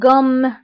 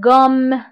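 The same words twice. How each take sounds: The two takes are said the same way.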